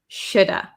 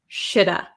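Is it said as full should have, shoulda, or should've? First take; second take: shoulda; shoulda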